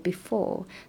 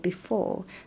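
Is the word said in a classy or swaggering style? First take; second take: classy; classy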